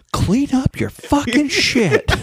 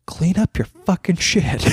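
First: Put-on high, slow, laughing little-girl voice; imitated little girl. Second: A hint of a toddler shouting the line; a slower, raised retelling of a swearing kid; imitated kid. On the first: Dad mimics his toddler repeating a swear, high and slow. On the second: Dad retells his toddler's swearing, lightly voiced.

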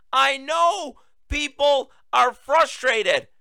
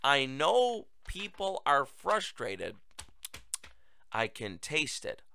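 First: High, slow mock Biden quote. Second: Softer, slow replay of his line; quiet mock quote. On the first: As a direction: slowly parrot his line back in mockery. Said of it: "What was that?". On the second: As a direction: mutter his words back in disbelief. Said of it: "Did he really just say".

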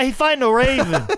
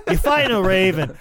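First: Much higher, laughing Boston fan line; hyped Boston local laughing through it; Boston townie accent. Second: Slightly higher, laughing Boston repeat; same Boston fan, pulled back a notch, laughing; softer Boston accent. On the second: Host repeats the Revere fan line, lighter laughing Boston accent. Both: Pretend. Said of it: "why don't you watch The Town".

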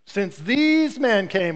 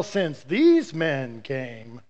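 First: "these" hit hardest, phrase said slowly; stress on these. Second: Slow, every word stretched out on "since these men came"; slow emphasis. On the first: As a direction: lean on "these" in "Since these men came", drawn out. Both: Shown as a demonstration.

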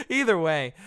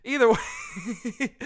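First: Laughing it off. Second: Said in the usual way. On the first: Real, not acted. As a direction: say it through a laugh. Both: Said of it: "I'm getting into personal stuff".

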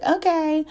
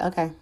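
First: High, brushing-off "Okay."; dismissive okay. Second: Said in the usual way. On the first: Retold or imitated. To a man who says he likes her, a high brushed-off "Okay.". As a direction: toss off "Okay." up high and a bit louder, unimpressed. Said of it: "I'm just gonna be like". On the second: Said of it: "and I'm like".

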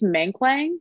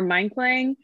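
First: Menklang with first syllable like "meng"; tentative pronunciation. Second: Menklang with first syllable like "mine"; alternative pronunciation. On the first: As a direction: say "Menklang" as MENG-kling, unsure. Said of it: "totally butchering the pronunciation of it". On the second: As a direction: say "Menklang" as MINE-kling, a second guess. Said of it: "probably impossible for us to pronounce". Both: Shown as a demonstration.

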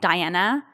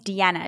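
First: "Diana" begun with "die", then "AN-a", rising at the end; mistaken name sound. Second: "Deanna" begun with "dee", then "AH-na"; correct name sound. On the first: Host shows the wrong version of her name, "Diana" starting with die. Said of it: "my name's Deanna". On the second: Host explains how her name is said, "Deanna" starting with dee. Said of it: "It's not Diana". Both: Shown as a demonstration.

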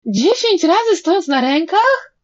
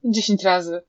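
First: High, loud chorus-like wail of disbelief; horrified howl. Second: Said in the usual way. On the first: A narrator's reading. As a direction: wail it as an outraged question. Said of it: "Zawyli juniorzy". (przerażone wycie z niedowierzaniem)

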